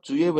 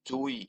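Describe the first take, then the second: First: The word ends with an 'e' sound. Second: The word ends with an 'i' sound. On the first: The speaker calls it wrong. "জুয়ে না বলে" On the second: The speaker calls it right. "কি বলবো, জুই"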